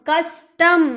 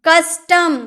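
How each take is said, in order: The two takes are said the same way.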